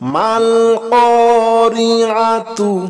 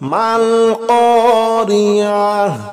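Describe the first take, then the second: First: The word ends with a 'tu' sound. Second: The word ends with a soft 'h' sound. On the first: The reading continues into the next word. "মিলাইয়া পড়লে তা" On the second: The reader stops after this word. "থামলে হবে মাল করিআহ"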